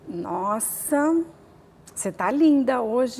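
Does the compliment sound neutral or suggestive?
suggestive. The compliment is said in a suggestive, insinuating tone. It is a seductive remark that amounts to harassment. "Mas ele pode falar assim"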